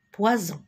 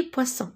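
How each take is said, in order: First: "poison" with a buzzing z between the vowels; z sound. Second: "poisson" with a crisp unvoiced s between the vowels; s sound. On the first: Teacher reads it with one S removed, "poison" said with z. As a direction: say "poison" with the single S voiced as z. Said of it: "Si j'enlève le S". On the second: Teacher explains two S between vowels, "poisson" said with s. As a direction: say "poisson" with s, never z. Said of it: "Donc, je dis poisson". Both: Shown as a demonstration.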